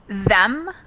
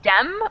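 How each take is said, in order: First: The word begins with a soft th sound. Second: The word begins with a hard d sound. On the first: "instead of saying them" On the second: "they might say dem with a d"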